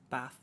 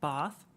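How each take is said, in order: First: It is said in a northern English accent. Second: It is said in a southern English accent. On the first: "That's like a northern England, Midlands to North England" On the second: "That's like southern England"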